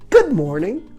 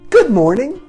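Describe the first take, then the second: First: The greeting sounds bright and cheerful. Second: The same.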